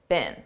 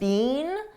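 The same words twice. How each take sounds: First: The word is said weak and unstressed. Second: The word is said strong and stressed. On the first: "a very unstressed been" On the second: "in British English they pronounce it more stressed"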